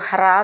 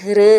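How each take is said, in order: First: The syllable is said as 'hra' with an a. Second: The syllable is said as 'hri' with a ri. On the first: The speaker calls it right. "ഹ്ര എന്നാണ്" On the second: The speaker calls it wrong. "ഹൃ എന്നായി പോരുത്"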